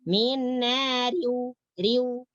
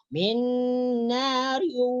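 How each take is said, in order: First: The r is pronounced light and thin. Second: The r is pronounced heavy and thick. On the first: The speaker calls it right. "ini dibaca tipis" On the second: The speaker calls it wrong. "dibaca tebal, tak boleh"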